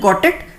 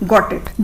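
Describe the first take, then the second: First: It is said as a question. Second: It is said as a statement. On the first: Asking whether the listener understood. "तब आप सवाल की तरह पूछ रहे हो।" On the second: Saying that one has understood. "मतलब मैं समझ गया"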